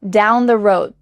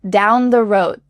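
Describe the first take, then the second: Both takes have the same delivery.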